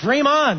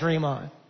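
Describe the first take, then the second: First: The tone is warm, positive and encouraging. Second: The tone is dismissive, mocking and sarcastic. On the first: Keep pursuing your big dream. "like the song in a very positive way" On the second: It is never going to happen. "a sarcastic way"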